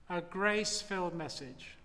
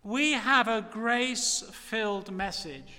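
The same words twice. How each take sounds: First: Soft echo. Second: Said in the usual way. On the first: Acted. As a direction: repeat grace-filled message much softer and lower. Preacher repeats phrase as echo.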